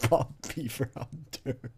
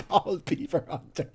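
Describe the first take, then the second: First: Said in the usual way. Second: Cracking up at the name; laughing. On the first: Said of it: "mocking the name". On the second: Shown as a demonstration. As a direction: say it through laughter. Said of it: "laughing at the name".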